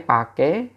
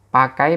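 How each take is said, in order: First: The word ends in a plain e vowel. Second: The word ends in an ai diphthong. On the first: This is the slang form. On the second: This is the standard form.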